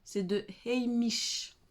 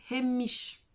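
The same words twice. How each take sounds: First: Heimish said slowly with a silent h, French-style ay-MEESH; slowed retry. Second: Heimish said with a sounded h, HAY-mish; brand name attempt. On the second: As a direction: try Heimish the Korean way, breathing out the h. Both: Shown as a demonstration. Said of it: "Un peu compliqué mon accent".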